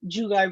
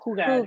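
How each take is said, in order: First: The word starts with an English J sound. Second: The word starts with an H sound. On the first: The speaker calls it wrong. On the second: The speaker calls it right.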